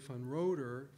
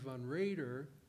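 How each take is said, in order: First: The surname's first vowel is said with rounded lips. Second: The surname's first vowel is said with unrounded lips. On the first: This is how an English reader would say the printed name. "An English speaker looking at the printed name uh, would probably say" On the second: This is how the family itself says the name. "the fact is they say"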